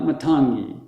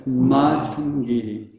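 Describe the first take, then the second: First: "Matangi" as muh-TAHN-gee; short first A, lean on TAN in "Matangi"; wrong middle stress. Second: "Matangi" as MAA-tun-gee, first and last vowels held; long first A. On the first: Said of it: "not Matangi". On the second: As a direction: stretch MA and GI in "Matangi", short middle. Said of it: "the first A is long and the ending E". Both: Shown as a demonstration.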